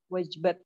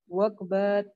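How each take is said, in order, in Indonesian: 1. Konsonan tengahnya bunyi j lembut. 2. Konsonan tengahnya bunyi g keras.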